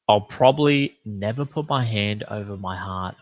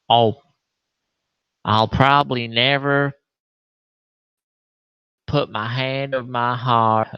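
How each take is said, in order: First: It is spoken in a Los Angeles accent. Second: It is spoken in a Southern Texas accent. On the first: The speaker calls it right. "She's probably from L A" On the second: The speaker calls it wrong. "That's more of a Texas voice"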